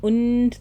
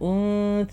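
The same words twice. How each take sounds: First: The n sound is fully and clearly pronounced. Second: The n sound is half-hidden, blending into s. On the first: The speaker calls it wrong. "അല്ല" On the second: The speaker calls it right. "ആ നൂൻ്റെ ശബ്ദം ലയിപ്പിച്ചുകൊണ്ട് പറയാം... പകുതി മറച്ചു പിടിച്ചുകൊണ്ട്"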